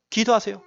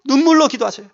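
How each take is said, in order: First: Said in the usual way. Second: 눈물로 lifted and pressed, falling at the end; stress on 눈물로. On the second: Shown as a demonstration. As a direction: lean hard into 눈물로 for the listeners.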